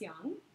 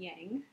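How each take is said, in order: First: The word is said the Chinese way. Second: The word is said the common English way. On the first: The speaker calls it right. "the Chinese pronunciation is yang" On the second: The speaker calls it wrong. "most people call it yin and yang"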